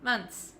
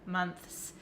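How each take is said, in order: First: The 'th' sound is dropped before the s. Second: A full 'th' sound comes before the s. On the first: The speaker calls it right. "Just say months" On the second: The speaker calls it wrong. "You have to stick your tongue out for the T H and then you have to bring it back in really quick for the S"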